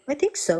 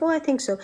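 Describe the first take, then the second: First: Timid reply. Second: Higher, hesitant mock-unsure I think so; light, uncertain I think so; timid reply. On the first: Retold or imitated. Unsure reply to godfather. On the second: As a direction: say it shyly as a tentative student.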